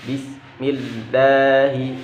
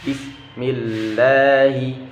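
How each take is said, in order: The two takes are said the same way.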